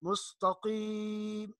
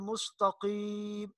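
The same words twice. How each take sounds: No difference in how they are said.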